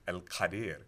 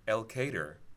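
First: It is said with the original foreign pronunciation. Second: It is said with an anglicized American pronunciation. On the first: This is the original foreign place name. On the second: This is the local American place name.

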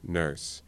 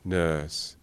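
First: It is said in a Southern American accent. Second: It is said in a British RP accent. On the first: "let's say a Southern American non-rhotic accent" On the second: "I'll use an RP example"

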